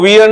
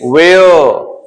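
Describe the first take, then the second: First: The vowel sounds like 'ear'. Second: The vowel sounds like 'air'. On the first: The speaker calls it wrong. "इसको वियर नहीं" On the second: The speaker calls it right.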